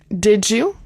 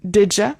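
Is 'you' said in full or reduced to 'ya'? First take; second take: full; reduced. First: The word 'you' is said in full. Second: The word 'you' is reduced to 'ya'.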